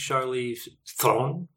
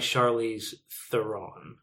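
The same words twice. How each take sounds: First: The R is rolled and the surname is squashed. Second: The R is plain and the surname is not squashed. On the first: This is the original pronunciation of the name. "With a rolling R and everything else squashed into one syllable" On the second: This is the version the person uses publicly. "she goes by"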